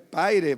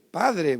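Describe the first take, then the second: First: The d sound is dropped from the word. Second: The d sound is clearly pronounced in the word. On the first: The speaker calls it wrong. "no es Paire" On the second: The speaker calls it right. "Es Padre"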